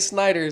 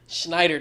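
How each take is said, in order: First: The name begins with a plain s sound. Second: The name begins with an sh sound. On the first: The speaker calls it wrong. "Don't say Snyder" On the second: The speaker calls it right. "It's Schneider"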